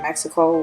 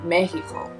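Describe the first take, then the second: First: It is said with an English pronunciation. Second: It is said with a Spanish pronunciation.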